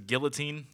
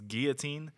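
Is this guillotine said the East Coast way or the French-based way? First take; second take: East Coast; French-based. First: The word is said the East Coast way. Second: The word is said the French-based way. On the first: This is how the singer says it. The speaker calls it wrong. "he says guillotine" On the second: This is the usual form of the word. The speaker calls it right. "it's guillotine, you heathens"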